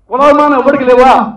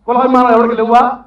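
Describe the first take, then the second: First: "కులాభిమానం" pushed louder, falling at the end; second, louder demand to the reporter; louder repeat. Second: "కులాభిమానం" rising, first asking of the challenge; first loud ask before the repeat; raised challenge. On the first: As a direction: hammer the question home louder. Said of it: "repeat of question". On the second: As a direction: put the question out firmly. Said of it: "repeated louder". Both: Real, not acted.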